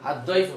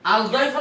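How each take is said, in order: First: The l merges into a doubled d. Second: The l is pronounced before the d. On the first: The speaker calls it right. "Right" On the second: The speaker calls it wrong. "না"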